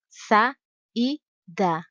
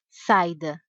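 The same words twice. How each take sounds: First: The a and i are separate full syllables. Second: The a and i merge into one syllable. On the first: The speaker calls it right. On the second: The speaker calls it wrong. "Não se diz saida"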